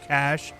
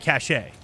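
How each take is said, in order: First: It is said as one syllable, like cash. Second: It is said as two syllables, ending in shay. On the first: "I keep saying cash" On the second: "And then once, I'll say cachet"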